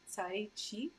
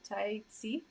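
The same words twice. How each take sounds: First: The second syllable begins with an sh sound. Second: The second syllable begins with a spread-lip s sound. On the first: The speaker calls it wrong. "I'm not saying it right" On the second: The speaker calls it right. "It's not she, it's si"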